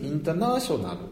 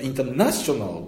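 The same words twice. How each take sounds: First: One syllable is made prominent by higher pitch. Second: One syllable is made prominent by being louder. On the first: "音を強くするんじゃなくて高くする" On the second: "ここをドンとインターナショナルって読む"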